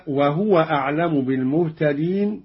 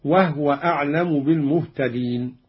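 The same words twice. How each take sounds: First: Said in the usual way. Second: "وهو" said "wah-wa", no vowel after h; recited "وهو" as two syllables, wah-wa; silent-vowel ha. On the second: Shown as a demonstration. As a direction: close the h in "وهو": wahwa. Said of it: "بإسكان الهاء".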